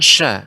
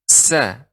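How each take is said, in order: First: The syllable begins with an sh sound. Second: The syllable begins with a plain s sound. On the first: The speaker calls it wrong. "Jangan sya" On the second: The speaker calls it right.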